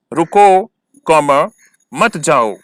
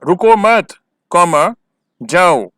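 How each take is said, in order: First: रुको punched, comma spoken aloud, then मत जाओ together; comma after रुको. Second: रुको मत together and louder, comma spoken aloud, then जाओ; comma after मत. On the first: Teacher dictating where the written comma goes, break after रुको. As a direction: stop after रुको, say comma, then मत जाओ as one unit. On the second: Teacher dictating the other comma position, break after मत. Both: Shown as a demonstration. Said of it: "कहाँ पर comma लगाना है".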